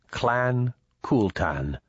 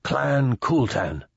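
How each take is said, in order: First: "Clan Kultan" slowly, word by word; measured prompt. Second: "Clan Kultan" slow, high and joined up; ceremonial repeat. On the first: PDA prompts Papa what to say, slowly measured. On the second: Papa greets the Indui as prompted, ceremonially. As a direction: intone "Clan Kultan" slowly on a raised pitch. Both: A narrator's reading.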